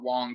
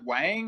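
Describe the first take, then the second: First: The vowel sounds like the one in song. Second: The vowel sounds like the one in cat. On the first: This is how the name is said in real life. "that spelling is pronounced as Wong" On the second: This is how the film says it. "They say Wang in that movie"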